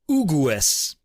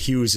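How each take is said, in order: First: The name is given an Italian pronunciation. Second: The name is given an English pronunciation. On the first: "if an Italian saw this name, he'd probably pronounce it Ugues" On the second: "the English way"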